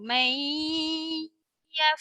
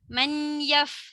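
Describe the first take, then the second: First: The n merges into a nasalized y sound. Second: The n is pronounced as a distinct n. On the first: The speaker calls it right. "Jumpa dengan ya, awak kena dengung" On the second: The speaker calls it wrong. "bukannya man yaf. Salah"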